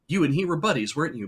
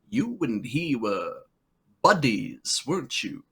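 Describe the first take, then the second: First: The words are said plainly without extra weight. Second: The words are leaned on with heavy careful enunciation. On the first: An ordinary, unremarkable reading of the line. The speaker calls it wrong. "a lesser actor would have come up and just been like" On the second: A funnier, more deliberate reading of the line. The speaker calls it right. "I love his delivery. He's like"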